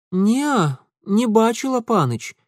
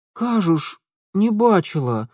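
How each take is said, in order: First: Put-on high girlish voice, shaking her head; timid girl saying no; young village girl. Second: Put-on higher, wary girl voice. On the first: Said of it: "покачала головой девчонка". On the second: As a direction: back away while denying it. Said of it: "глядела с опаской".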